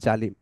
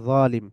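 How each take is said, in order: First: The word starts with a Bengali j sound. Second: The word starts with the Arabic emphatic consonant. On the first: "আমরা বাংলায় বলি জালিম" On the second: "আরবিতে বলা হয় যালিম"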